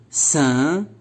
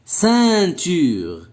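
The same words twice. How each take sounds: First: Ceinture as cein, tu, re with gaps between; split into syllables. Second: Said in the usual way. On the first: Shown as a demonstration. Teacher showing the word has three syllables, split into syllables. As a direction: break Ceinture into three, voicing the final re. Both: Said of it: "Trois syllabes".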